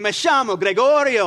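It is said in an Argentine Spanish accent.

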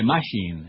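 The word is said in a Jamaican-style accent. "They say machine"

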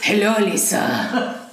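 It is spoken in a put-on French accent.

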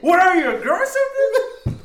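It is said forcefully, with real conviction.

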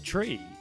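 It begins with a hard T sound. "the Irish say tree and turdy and thirsty, like on a hard T"

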